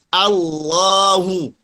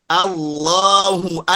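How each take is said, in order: Both takes have the same delivery.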